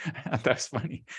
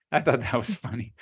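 First: Laughing. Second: Said in the usual way. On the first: Real, not acted. Repeats joke through a laugh.

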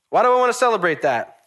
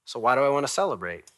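First: High, loud, insistent question; emphatic repeated question. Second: Said in the usual way. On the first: Real, not acted. Preacher asking why he celebrates, high and emphatic. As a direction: throw the question out with force.

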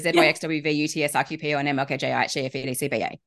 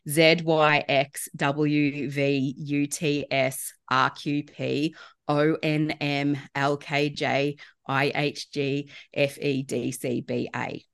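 First: Alphabet backwards at top speed; backwards speech. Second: Slow, deliberate backwards alphabet; backwards speech. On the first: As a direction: rattle the letters off as fast as possible. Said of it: "saying the alphabet backwards in under six seconds". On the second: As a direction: spell out each letter slowly and clearly. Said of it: "I will repeat it slowly". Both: Shown as a demonstration.

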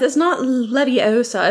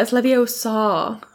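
First: LEVIOSA higher, as the mistaken version; correcting pronunciation. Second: Slow LEVIOSA, last syllable drawn out as "saw"; correcting pronunciation. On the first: Hermione correcting Ron's LEVIOSA, imitating the version she rejects. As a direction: show the wrong LEVIOSA, pitched up. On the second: Hermione teaching Ron LEVIOSA, slowly drawn out to "saw". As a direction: stretch the end of LEVIOSA to "saw". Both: Retold or imitated. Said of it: "And she's like".

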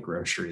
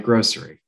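First: "grocery" said as "groshery", with an sh sound; "grocery" pronounced "groshery", sh in the middle. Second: "grocery" said with a clear s: "grossery"; "grocery" with a sharp s sound, not sh. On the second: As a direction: keep a crisp s in "grocery". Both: Shown as a demonstration. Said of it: "I'm upset that I called it grocery".

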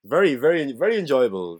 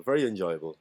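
First: Playful emphasis. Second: Said in the usual way. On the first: Shown as a demonstration.

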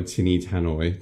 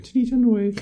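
First: Said in the usual way. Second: "Tinny tannoy" in a very high put-on voice; silly squeaky echo. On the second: Podcaster relishes odd phrase, silly squeaky voice.

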